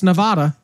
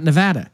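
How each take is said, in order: First: Nevada said as "nuh-VAY-duh"; long "ay" in the middle of Nevada; Missouri's Nevada. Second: Nevada said as "nuh-VAD-uh"; short "a" in the middle of Nevada; state's Nevada. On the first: Host citing the Missouri town, Nevada as "nuh-VAY-duh". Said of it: "in Missouri, it's Nevada". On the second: Host contrasting it with Missouri's, Nevada as "nuh-VAD-uh". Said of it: "not Nevada". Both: Shown as a demonstration.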